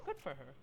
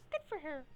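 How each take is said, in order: First: Said in the usual way. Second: "Good for her" in a higher put-on voice; a higher, mock-cheery "Good for her". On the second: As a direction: repeat "Good for her" pitched up. Repeated reaction, second take.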